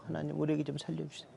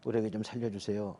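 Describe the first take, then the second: First: Fast, rattled-off prayer like counting a hundred times; speedy rote praying; rapid repeated prayer. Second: One slow prayer. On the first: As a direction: gabble the plea quickly, over and over. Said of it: "손가락을 쉬어가면서 했어요". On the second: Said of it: "이렇게 하니까 무슨 삼 초도 안 걸리더라고요". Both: Retold or imitated.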